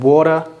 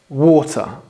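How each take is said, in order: First: It is said in an American accent. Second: It is said British-style with a clear T. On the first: The speaker calls it wrong. "Not bottle and water like it would be in American English" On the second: The speaker calls it right. "pronouncing your T's if you want to sound British"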